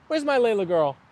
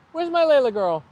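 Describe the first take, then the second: First: Said in the usual way. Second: Higher sing-song voice for the dog; pet talk. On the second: Real, not acted. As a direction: coo it to your dog, pitched up.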